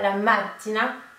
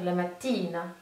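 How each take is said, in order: First: It sounds close to the word macchina. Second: It sounds clearly like the word mattina. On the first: The speaker calls it wrong. "ne faites pas la mattina, parce que du coup ça fait penser euh, à la prononciation de, du mot voiture, qui est la macchina" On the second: The speaker calls it right. "Là on est bien sur la mattina"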